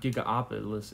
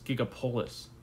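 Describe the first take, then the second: First: The name has an extra vowel, five syllables. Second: The name has no extra vowel, four syllables. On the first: The speaker calls it wrong. "I keep pronouncing it wrong. It's not Gigaopolis" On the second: The speaker calls it right. "it's Gigapolis"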